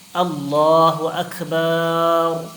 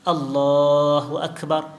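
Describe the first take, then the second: First: The last vowel of Akbar is drawn out long. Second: The last vowel of Akbar is kept short. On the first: It would mean Allah is drums. The speaker calls it wrong. "Ada orang dia panjangkan ba" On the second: Allah is the greatest. The speaker calls it right. "Gitu saja"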